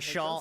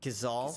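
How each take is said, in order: First: The word is said with a sh sound. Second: The word is said with a z sound. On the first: The speaker calls it wrong. "I always just pronounce it" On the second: The speaker calls it right. "is that how you say that?"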